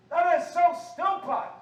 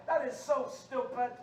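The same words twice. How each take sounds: First: High, very loud preacher's outburst; shouted scolding; indignant shout. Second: Said in the usual way. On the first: Real, not acted. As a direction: blast the congregation in exasperation. Repeats it as a shout.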